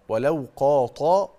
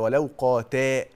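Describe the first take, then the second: First: The consonant is a heavy, emphatic t. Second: The consonant is a light, plain t. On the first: The speaker calls it wrong. "طاء" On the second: The speaker calls it right. "تاء"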